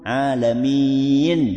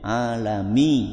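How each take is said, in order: First: The word ends with an n sound. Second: The word ends on a vowel, without n. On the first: The speaker calls it right. "Terakhir apa? Nun" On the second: The speaker calls it wrong. "harusnya ada nunnya"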